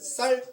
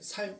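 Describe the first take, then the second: First: The first consonant is tense and strong. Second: The first consonant is plain and soft. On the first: "쌀 하면" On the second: "살이라고 얘기해요"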